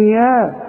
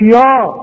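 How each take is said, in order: First: "يا" with a thin, light vowel. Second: "يا" with a thick, dark vowel; wrong heavy ya. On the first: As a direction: model "يا" light and open, not thickened. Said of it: "الياء في القرآن يا". ("يا" مرققة) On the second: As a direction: imitate the mistake, a heavy "يا". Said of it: "مش يا". (تقليد الغلط: "يا" مفخمة) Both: Shown as a demonstration.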